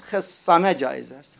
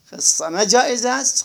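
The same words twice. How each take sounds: First: خصمه said khissama, with kasra on kha; short i on the kha in خصمه. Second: خصمه said khassama, with fatha on kha; khasama with fatha. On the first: Teacher giving the kasra variant. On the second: Teacher giving the fatha variant. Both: Shown as a demonstration. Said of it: "خصمه یا خصمه".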